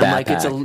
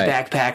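First: It is said in a deeper, drawled voice. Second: It is said in a normal, higher voice. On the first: The speaker sounds like someone from California. "Like it's a deeper like" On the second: The speaker sounds like someone not from California. "Whereas I would say like"

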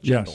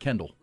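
First: The name begins with a CH sound. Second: The name begins with a hard K sound. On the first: The speaker calls it wrong. "not Chendall" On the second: The speaker calls it right. "they pronounce it Kendall"

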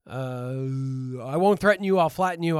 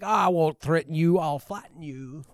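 First: It is said in the speaker's ordinary voice. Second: It is said in a put-on lower-class voice.

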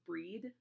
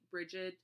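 First: The name is said with a Celtic pronunciation. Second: The name is said with an Americanized pronunciation. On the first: "but it's pronounced Breed" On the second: "because that I'm Americanizing it"

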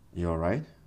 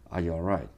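First: The voice goes up and down, sounding worried. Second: The voice stays light and even, sounding relaxed. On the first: The speaker thinks something may be wrong. "It does this up-down thing" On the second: It is just a friendly hello. "This one may sound very casual, normal, maybe happy"

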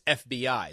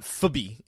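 First: It is pronounced as three separate letters. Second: It is pronounced as a single word. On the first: The speaker calls it right. "It's FBI" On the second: The speaker calls it wrong. "It's not FBI"

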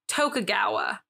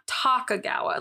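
First: The first syllable sounds like 'toe'. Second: The first syllable sounds like 'talk'. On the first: The speaker calls it right. "to me, it would be Tokugawa" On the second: The speaker calls it wrong. "Not Tokugawa. Like, talk looks wrong in my head"

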